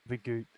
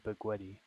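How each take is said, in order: First: The word ends on a plain 't' sound. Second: The word ends with an added 'ee' vowel.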